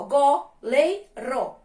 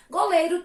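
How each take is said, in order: First: "Goleiro" in three slow, separate syllables. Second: Said in the usual way. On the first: Shown as a demonstration. Teacher showing three syllables, "Goleiro" slowly split up. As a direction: say "Goleiro" as go, lei, ro with pauses. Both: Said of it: "três sílabas".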